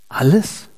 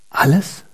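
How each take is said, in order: The two takes are said the same way.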